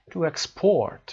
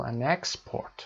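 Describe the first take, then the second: First: "export" stressed on PORT, as a verb; second-syllable stress. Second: "export" stressed on EX, as a noun; first-syllable stress. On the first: Teacher showing students the verb, "export" stressed on PORT. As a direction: say ex-PORT, weight on the last syllable. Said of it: "and the verbs on the second syllable". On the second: Teacher showing students the noun, "export" stressed on EX. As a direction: say EX-port, weight on the first syllable. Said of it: "nouns are usually stressed on the first syllable". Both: Shown as a demonstration.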